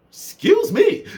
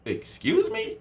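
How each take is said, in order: First: Much higher, louder "Excuse me."; hammed-up offended squeal; outraged mock disbelief; exaggerated disbelief. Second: Shocked, much higher "Excuse me?"; incredulous excuse me. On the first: Mocking the rude message again. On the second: Retold or imitated. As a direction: act offended and disbelieving. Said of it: "I was like".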